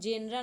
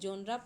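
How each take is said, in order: First: The first vowel sounds like 'eh'. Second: The first vowel sounds like 'aw'. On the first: The speaker calls it wrong. "इसको जेनरा नहीं" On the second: The speaker calls it right. "जोनरा पढ़ते हैं"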